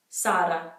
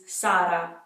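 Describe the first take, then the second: The two takes are said the same way.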